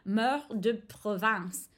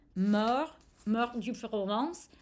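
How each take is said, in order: First: The last word sounds like the word province. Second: The last word sounds like the region Provence. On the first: The speaker calls it right. "I think that's like a decent pronunciation" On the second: The speaker calls it wrong. "which is what I just said in French. Sorry, that was a mispronunciation"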